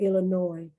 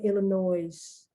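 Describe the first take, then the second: First: The final S sound is left silent. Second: The final S sound is pronounced. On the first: "it's really Illinois. The S is not pronounced" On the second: "Americans say Illinois"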